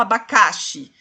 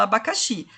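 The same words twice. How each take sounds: First: Abacaxi misstressed as a-ba-CA-xi; wrong stress on CA. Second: Abacaxi stressed on the last syllable, XI; correct final stress. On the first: Teacher shows what nobody says, abacaxi wrongly stressed on CA. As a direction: punch the CA of abacaxi, dropping the XI. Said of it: "Porque você não fala". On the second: Teacher gives the real word, abacaxi stressed on final XI. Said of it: "você fala abacaxi". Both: Shown as a demonstration.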